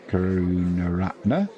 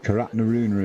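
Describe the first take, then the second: First: The syllables come in their usual order. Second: The middle syllables are swapped around. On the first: The speaker calls it right. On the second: The speaker calls it wrong.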